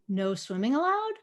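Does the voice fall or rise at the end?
rise. The pitch rises at the end of the phrase. It questions whether swimming is really forbidden.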